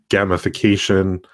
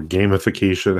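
First: GAMIFICATION with a short a, as in "gam"; "gamification" opening on gam, rhyming with ham; short-a pronunciation. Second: GAMIFICATION with a long a, as in "game"; "gamification" opening on game, rhyming with name; long-a pronunciation. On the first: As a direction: say "gamification" starting like "gamma". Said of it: "however you want to pronounce that". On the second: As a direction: say "gamification" starting with the word game. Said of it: "I've heard it pronounced both ways". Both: Shown as a demonstration.

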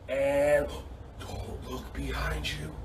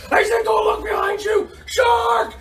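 First: Very soft, low, slow warning; hushed suspense. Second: Very high, alarmed yell; mock panic shout. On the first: Pretend. Coach warning kids of pretend shark, hushed warning. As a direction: barely voice it, drawing out the dread. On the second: Coach springing pretend shark on kids, high panicked shout. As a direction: shriek the warning in pretend terror.

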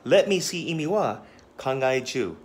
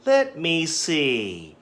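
First: Said in the usual way. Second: Slow, drawn-out "Let me see", pondering; thinking aloud. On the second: Shown as a demonstration. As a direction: stretch it like you're still thinking. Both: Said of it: "this is a thinking expression".

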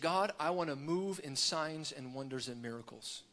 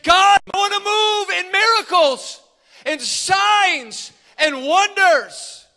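First: Low, soft prayer; quiet prayer. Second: High, loud cry to God; top-of-lungs shout. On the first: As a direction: pray it softly, under the level of your preaching. Retold private prayer, said low. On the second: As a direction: shout the plea with all your lungs, stretching the last words. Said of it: "at the top of his lungs, he shouted". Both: Retold or imitated.

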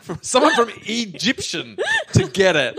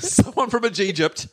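First: "Egyptian" said high and laughing instead of "Egypt"; high giggling "Egyptian" where "Egypt" was meant; mispronounced slip. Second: "Egypt" said right after the slip, still laughing; corrected "Egypt", amused and a little higher; corrected word. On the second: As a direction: fix it to "Egypt" with a giggle. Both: Real, not acted. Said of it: "I said Egypt".

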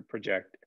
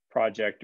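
First: "project" said pruh-JECT, weak first syllable, stress on "ject"; second pronunciation. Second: "project" said PRAH-ject, stress on the first syllable; first pronunciation. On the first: Teacher to class giving the other pronunciation, pruh-JECT. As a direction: swallow the "pro" and lean on "JECT". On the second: Teacher to class naming the first pronunciation, PRAH-ject. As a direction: open "pro" like "prod", then "ject". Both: Shown as a demonstration. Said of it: "The book is gonna tell you about project or project".

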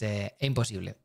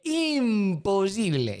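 First: Said in the usual way. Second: "imposible" stretched slowly, each syllable dragged; drawn out. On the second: Shown as a demonstration. Vlogger on therapy prices, dragging out "imposible" slowly. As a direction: drag out "imposible" like it's absurd. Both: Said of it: "repeats the word to stress it".

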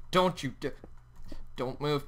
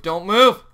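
First: Hushed, careful command; wary warning. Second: Loud command rising at the end; sharp, louder plea; urgent warning. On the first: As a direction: warn it quietly, carefully. Warns tiger while building cage. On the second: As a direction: raise your voice in alarm. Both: Real, not acted.

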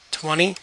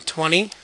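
Both takes have the same delivery.

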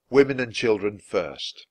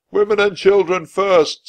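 First: Said in the usual way. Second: Put-on high, loud shout of Women and children first. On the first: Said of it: "Chapter six". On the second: A narrator's reading. A crewman orders women into the boats, shouting. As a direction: bellow the order across the deck. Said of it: "someone shouted".

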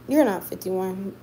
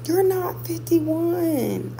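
First: Said in the usual way. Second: Higher, very slow "You're not fifty-one" stretched in disbelief; drawn-out disbelief. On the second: Real, not acted. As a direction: stretch every word out like you can't believe it. Disbelief at viewer's age.

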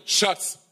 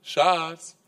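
First: Schatz pitched higher and sharp; the wife's Schatz turning to annoyance; exasperated Schatz. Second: Schatz said sweetly and lightly; a gentle opening Schatz. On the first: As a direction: Schatz with a warning edge. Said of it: "mündet relativ schnell in einem". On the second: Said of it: "sie fängt an mit". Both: Retold or imitated.

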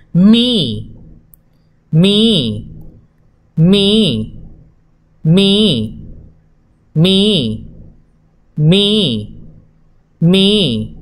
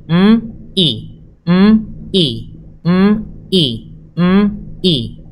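First: "Mi" said as one joined sound; blended syllable. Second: "M, I" as two separate sounds; letters sounded apart. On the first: Teacher models blending for children. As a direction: blend them into "Mi". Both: Shown as a demonstration. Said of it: "¿Cómo suena?".

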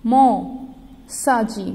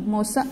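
First: "मौसा जी" drawn out very slowly; slow sounded-out word. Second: Said in the usual way. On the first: Shown as a demonstration. Teacher reading "मौसा जी" to children, slowly stretched. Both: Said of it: "Gauri की".

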